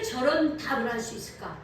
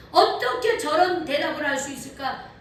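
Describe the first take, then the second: First: Said in the usual way. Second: Louder, higher marvelling repeat; a preacher marvelling out loud at the boy's answer; amazed question. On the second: Shown as a demonstration. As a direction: ask it again, full of wonder.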